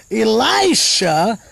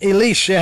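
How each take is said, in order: First: Elisha said slowly as ee-LIE-sha; alternative pronunciation. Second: Elisha said as ee-LEE-sha; long "ee" in the middle of Elisha; alternative pronunciation. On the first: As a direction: stretch a long "eye" in the middle of Elisha. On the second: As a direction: Elisha with its middle rhyming with "see". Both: Shown as a demonstration. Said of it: "however you want to say it".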